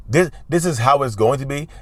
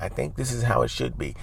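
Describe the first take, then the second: First: Firm and decisive, at full speaking volume; strong, firm tone. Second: Soft, hesitant suggestion; tentative. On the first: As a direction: state it as settled fact, no hedging. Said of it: "this tone is strong". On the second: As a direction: offer it timidly, much more quietly. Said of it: "Don't do that". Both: Shown as a demonstration.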